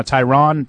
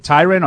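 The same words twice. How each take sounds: First: Tyron said as tie-RON, full "ah" vowel; tie-RON pronunciation. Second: Tyron said as TIE-rin, weak second syllable; TIE-rin pronunciation. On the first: Host offering another option, Tyron pronounced tie-RON. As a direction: give Tyron a clear "ron" ending. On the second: Host checking a rookie's name, Tyron pronounced TIE-rin. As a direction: say Tyron with a short, unstressed "rin". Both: Shown as a demonstration. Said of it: "How do you pronounce his name".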